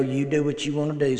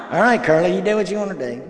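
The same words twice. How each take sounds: First: Said in the usual way. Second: Higher and louder, throwing up his hands; fine, have it your way, kid; exasperated grandpa caving in; resigned giving in. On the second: Retold or imitated.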